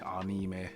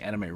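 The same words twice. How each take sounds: First: It is pronounced the Japanese way. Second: It is pronounced the usual English way. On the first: The speaker calls it right. "It's actually anime" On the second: The speaker calls it wrong. "we were saying anime wrong for the longest"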